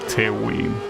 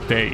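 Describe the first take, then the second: First: The name is said with a 'w' sound inside. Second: The name is said without a 'w' sound inside. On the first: The speaker calls it wrong. "that's not how you pronounce it" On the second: The speaker calls it right. "you pronounce it Tei"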